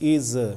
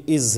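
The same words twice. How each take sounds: First: An extra short vowel follows the final consonant. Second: The word ends cleanly on the final consonant. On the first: The speaker calls it wrong. "ये अ नहीं निकलेगा कि इज" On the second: The speaker calls it right. "ये इज है"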